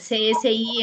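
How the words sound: The letters are said with Spanish letter names. It is how people in Spain say it. The speaker calls it wrong. "como los españoles que, ... digan C S I"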